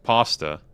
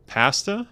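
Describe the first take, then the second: First: Said in the usual way. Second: "pasta" with short a as in cat; higher, questioning "pasta", PASS-tuh; other pasta pronunciation. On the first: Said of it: "I say pasta". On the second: Retold or imitated. Streamer tests the clip's version, questioning pasta as PASS-tuh.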